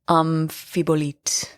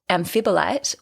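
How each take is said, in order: First: It is pronounced with a French accent. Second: It is pronounced with an English accent.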